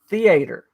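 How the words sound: It is said in a Southern American accent.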